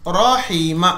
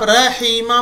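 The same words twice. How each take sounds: First: The first r sound is heavy and thick. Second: The first r sound is light and thin. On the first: The speaker calls it right. "आपको र मोटा पढ़ना है।" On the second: The speaker calls it wrong. "अगर आप रहीमा बोलेंगे गलत है"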